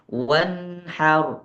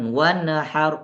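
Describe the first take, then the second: First: The n joins the h with no vowel. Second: The n bounces into an extra vowel. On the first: The speaker calls it right. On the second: The speaker calls it wrong.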